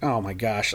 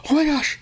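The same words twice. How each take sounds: First: Low, soft, unimpressed; retold underwhelmed reaction. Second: Imitating her high-pitched gasped reaction; mock shock, pitched way up; retold shocked gasp. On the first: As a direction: play down the shock, voice dropped. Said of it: "my reaction was like". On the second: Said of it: "she's like".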